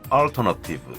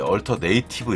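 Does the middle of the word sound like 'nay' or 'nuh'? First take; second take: nuh; nay. First: The middle is said with a short 'nuh' sound. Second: The middle is said like 'native', with 'nay'. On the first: The speaker calls it right. "이렇게 읽어야죠" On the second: The speaker calls it wrong. "이렇게 읽으면 촌스럽게 읽는 거고"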